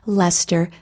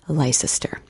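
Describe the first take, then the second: First: It is said in a shortened form. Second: It is said as spelled, every syllable sounded. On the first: The speaker calls it right. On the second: The speaker calls it wrong.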